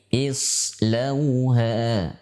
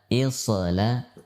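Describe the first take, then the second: First: The sad sound is held without a bounce. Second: The sad sound is released with a bounce. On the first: The speaker calls it right. "Harus dibaca tanpa pantulan, tanpa qalqalah" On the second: The speaker calls it wrong. "Bukan isla"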